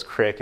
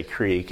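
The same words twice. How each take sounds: First: "crick" with a short I, like brick; dad's short vowel. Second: "creek" with a long EE, like seek; long EE vowel. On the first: Pastor quotes his dad's pronunciation, "crick" with short I. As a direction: clip the vowel to rhyme "crick" with pick. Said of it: "my dad says crick". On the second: Pastor gives his own pronunciation beside dad's, "creek" with long EE. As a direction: stretch the vowel in "creek" to rhyme with week. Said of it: "I say creek". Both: Shown as a demonstration.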